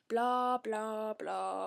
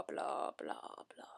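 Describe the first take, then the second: First: Said in the usual way. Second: Dismissive whispered blah blah. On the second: Pretend. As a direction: trail off into a whisper. Dismissing the plot.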